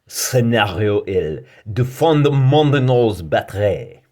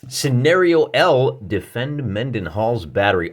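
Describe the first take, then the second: First: It is said in a put-on French accent. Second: It is said in a plain American accent.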